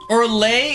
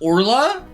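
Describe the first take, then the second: First: The name ends with an 'ay' sound. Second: The name ends with an 'uh' sound. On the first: The speaker calls it wrong. "Orlay is pronounced Orla?" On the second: The speaker calls it right. "is pronounced Orla"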